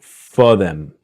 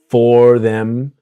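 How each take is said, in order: First: The word them is reduced to em. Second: The word them is said in full.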